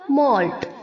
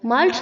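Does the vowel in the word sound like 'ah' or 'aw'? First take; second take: aw; ah. First: The vowel is a rounded 'aw' sound. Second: The vowel is an open 'ah' sound. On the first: The speaker calls it right. "उसे हमें ओ की तरह pronounce करना है" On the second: The speaker calls it wrong. "माल्ट नहीं होगा"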